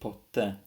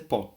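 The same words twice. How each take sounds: First: The stress is on the second syllable. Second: The stress is on the first syllable.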